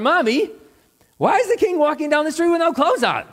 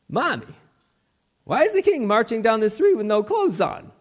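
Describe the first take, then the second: First: It is said more loudly. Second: It is said at a normal, softer volume.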